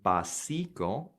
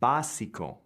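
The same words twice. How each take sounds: First: The stress is on a later syllable. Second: The stress is on the first syllable. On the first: The speaker calls it wrong. "and not necessarily básico" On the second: The speaker calls it right. "So it's básico"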